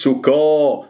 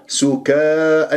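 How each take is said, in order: First: سكا drawn out with a dark, rounded vowel after ك; wrong heavy kaf. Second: سكا drawn out with a thin, open a after ك; light kaf. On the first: Teacher shows what not to say, heavy kaf. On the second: Teacher corrects the mistake, thin kaf. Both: Shown as a demonstration. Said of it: "مش سكا".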